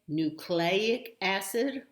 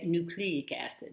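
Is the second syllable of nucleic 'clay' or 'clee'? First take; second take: clay; clee. First: The second syllable sounds like 'clay'. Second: The second syllable sounds like 'clee'. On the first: "which is the way I learned it and hear it" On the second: "that sounds a little more erudite"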